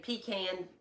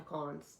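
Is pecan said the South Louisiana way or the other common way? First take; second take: other common; South Louisiana. First: Pecan is said the common non-Louisiana way. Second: Pecan is said the South Louisiana way.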